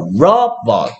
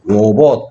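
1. 두 번째 모음은 약하게 줄어든 uh 소리예요. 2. 두 번째 모음은 분명한 o 소리예요. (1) "얘는 힘센 소리가 나고 얘는 힘 빠진 소리가 나기 때문이야" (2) "robot 이렇게 소리 안 내"

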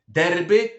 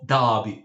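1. Wymawia się je polskimi dźwiękami. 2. Wymawia się je angielskimi dźwiękami. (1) "I nie mówimy derby" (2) "tylko derby"

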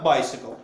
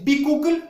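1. Второй слог звучит как 'si'. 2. Второй слог звучит как 'koo'. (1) "потому что это bicycle" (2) "у нас есть бикукль"

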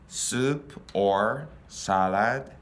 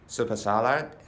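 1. 単語はゆっくり、区切って発音されています。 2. 単語は速く、つながって発音されています。

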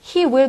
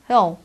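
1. 두 단어 모두 h를 살려서 완전하게 발음해요. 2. 이 단어들은 한 음절로 줄여서 발음해요.

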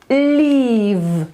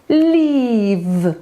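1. Ostatnia spółgłoska jest dźwięczna, jak v. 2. Ostatnia spółgłoska jest dźwięczna, jak v.

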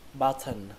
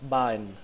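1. Âm t ở giữa được phát âm rõ ràng. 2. Âm t ở giữa bị lướt qua. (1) "Như vậy cái từ này chúng ta sẽ đọc là button" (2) "đọc bỏ qua cái âm t này, lướt qua thôi"

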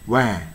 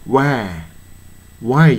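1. 母音は平たい'ah'の音です。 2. 母音は完全な'eye'の滑らかな音です。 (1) "why に近く発音してますね" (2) "why じゃなくてね"

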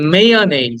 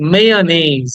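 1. শেষ অক্ষরে একটি 'ay' স্বরধ্বনি আছে। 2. শেষ অক্ষরে একটি 'ay' স্বরধ্বনি আছে।

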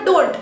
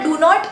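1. एक झटपट आकुंचित अक्षर म्हटले जाते. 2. दोन पूर्ण शब्द वेगवेगळे म्हटले जातात. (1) "आपण क्विकली म्हणताना डोंट असं म्हणतो" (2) "आपण म्हणताना डू नॉट नाही म्हणत"

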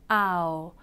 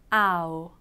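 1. 첫 소리는 세게, 두 번째 소리는 약하게 내요. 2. 첫 소리는 세게, 두 번째 소리는 약하게 내요.

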